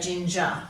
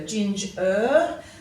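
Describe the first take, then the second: First: The final syllable is reduced to a weak schwa. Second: The final syllable has a full, clear er sound. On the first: "more commonly we say ginger" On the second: "if you pronounce it carefully, um, you'll hear that er"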